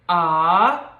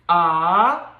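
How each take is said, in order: First: The pitch rises from middle to high. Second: The pitch rises from middle to high.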